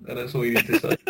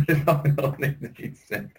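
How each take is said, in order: First: Said in the usual way. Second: Slow, laughing repeat. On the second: Real, not acted. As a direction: say it again through laughter. Punchline repeated while laughing.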